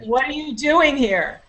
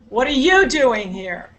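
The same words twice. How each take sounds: First: The stress falls on the word doing. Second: The stress falls on the word you. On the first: It is the normal way to ask the question. "the first sentence uh, focus was on the uh, doing" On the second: This particular person was not supposed to be there. "the second sentence ... focus was on you"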